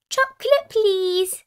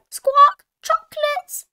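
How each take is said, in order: First: Put-on high, loud little child voice; Susie Sheep. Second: Very high parrot squawk; Polly Parrot. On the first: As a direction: ask in a high piping voice. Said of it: "Susie Sheep said". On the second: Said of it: "Polly Parrot copied". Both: A narrator's reading.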